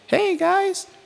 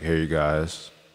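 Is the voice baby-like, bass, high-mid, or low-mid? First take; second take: high-mid; bass. First: It is said in a fairly high voice. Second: It is said in a very deep bass voice.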